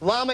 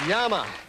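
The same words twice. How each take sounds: First: It is pronounced the ordinary English way. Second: It is pronounced the South American Spanish way.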